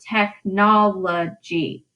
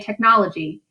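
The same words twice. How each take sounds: First: The word is said slowly, syllable by syllable. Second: The word is said at normal, quick speed. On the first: "if you really break it down" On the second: "if we just say technology"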